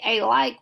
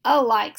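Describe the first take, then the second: First: "a like" with a long A, "ay like"; "a like" said as "ay-like", the wrong way; wrong pronunciation. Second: "a like" with the A reduced to a schwa, "uh-like"; a quick "uh" before "like", stressed a bit louder; "a like" said as "uh-like", the right way; correct pronunciation. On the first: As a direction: stress a full "ay" before "like". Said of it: "we don't say a like". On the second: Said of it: "we say a like". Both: Shown as a demonstration.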